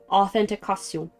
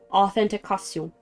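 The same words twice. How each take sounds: First: The word is said with a French accent. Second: The same.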